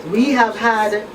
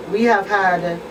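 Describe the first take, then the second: No difference in how they are said.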